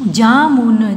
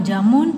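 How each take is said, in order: First: jamun stretched into separate sounds; syllable by syllable. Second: Said in the usual way. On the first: Shown as a demonstration. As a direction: hold each syllable of जामुन. (जामुन को तोड़-तोड़ कर) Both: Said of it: "फिर ये सारे बोलने".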